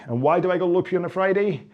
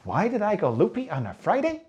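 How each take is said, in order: First: Said in the usual way. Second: Put-on high, sing-song children's presenter question; Dora the Explorer. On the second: Coach quizzing viewers like small children, hammed-up presenter voice. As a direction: ask it like a kids' show host. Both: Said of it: "It's like Dora the Explorer".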